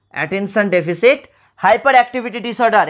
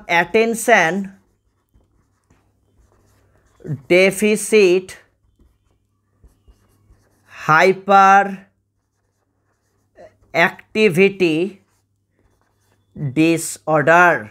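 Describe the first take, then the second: First: Said in the usual way. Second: Each word slowly, with long pauses between; slow dictation. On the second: Shown as a demonstration. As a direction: spell it out word by word for note-taking. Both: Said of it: "পুরো নামটা একটু ভালো করে মনে রাখবে".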